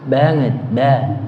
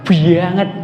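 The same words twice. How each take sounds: First: Said in the usual way. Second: Javanese "banget" with a heavy doubled B, "bbanget"; mild Javanese medok "banget"; Javanese accent. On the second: Shown as a demonstration. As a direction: say "banget" the thick Javanese medok way, B pressed hard. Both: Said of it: "Surah yang Jawa ini B-nya dua".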